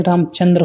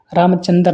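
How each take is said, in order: First: Said in the usual way. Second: रामचंद्र ending in "chandar"; mispronunciation. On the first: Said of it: "रामचंद्र होते हैं". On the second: Shown as a demonstration. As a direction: break the final dr of रामचंद्र with a vowel. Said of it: "रामचंद्र नहीं". (रामचंद्र को 'रामचंदर' बोलकर)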